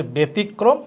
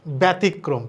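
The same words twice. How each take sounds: First: ব্যতিক্রম with a doubled k, betikkrom; ব্যতিক্রম with the k held double; correct pronunciation. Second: ব্যতিক্রম with a single k sound; ব্যতিক্রম as many people say it, single k; common wrong pronunciation. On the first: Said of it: "ব্যতিক্রম না". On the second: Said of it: "অনেকে বলে". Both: Shown as a demonstration.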